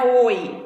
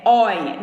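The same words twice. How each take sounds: First: "oi" with a closed o, as in boi. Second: "oi" with an open o, as in herói. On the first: Teacher showing what an open diphthong is not, closed "oi". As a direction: say "oi" with a rounded, closed o. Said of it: "não é oi". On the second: Teacher showing the open diphthong, open-vowel "oi". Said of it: "Quando ele é aberto". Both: Shown as a demonstration.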